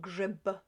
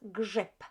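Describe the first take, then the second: First: The word ends with a voiced B sound. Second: The word ends with a voiceless P sound. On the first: The speaker calls it wrong. "rather than" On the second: The speaker calls it right. "the B at the end of this word becomes P. We pronounce it as"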